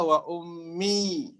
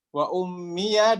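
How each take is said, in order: First: The final ya is silent, ending on i. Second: The final ya is voiced with a vowel.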